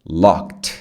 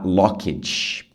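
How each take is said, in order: First: It is one syllable ending in a t sound. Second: The ending is said as an extra syllable. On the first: The speaker calls it right. "Você fala um som de T" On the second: The speaker calls it wrong. "cuidado para não falar locked. Você não fala esse E"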